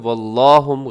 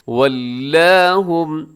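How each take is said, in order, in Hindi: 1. L की आवाज़ भारी और मोटी है। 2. L की आवाज़ हल्की और पतली है। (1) "इसमें लाम को मोटा ना कीजिएगा, वल्लाहुम गलत हो जाएगा" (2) "सब के सब बारीक पढ़े जाएंगे"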